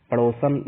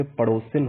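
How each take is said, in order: First: पड़ोसन said as padosan, no i; wrong form. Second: पड़ोसिन said as padosin with a clear short i; correct form. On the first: Teacher reading out the wrong form पड़ोसन, no i sound. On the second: Teacher giving the correct पड़ोसिन, clear short i. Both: Shown as a demonstration. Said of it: "पड़ोसन ना होके पड़ोसिन होगा".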